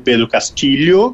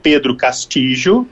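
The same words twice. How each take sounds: First: The name is pronounced with Spanish sounds. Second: The name is pronounced with Portuguese sounds.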